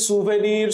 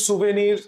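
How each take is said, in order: Both takes have the same delivery.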